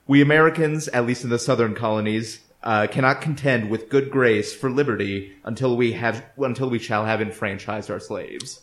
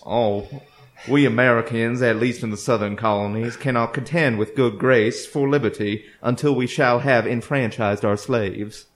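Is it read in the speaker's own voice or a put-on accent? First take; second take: own voice; put-on accent. First: It is read in the speaker's own normal accent. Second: It is read in a put-on period accent.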